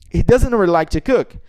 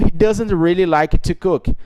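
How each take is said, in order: First: The sentence is spoken quickly. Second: The sentence is spoken slowly. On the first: "É rápida" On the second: "Note que a velocidade aí está mais lenta"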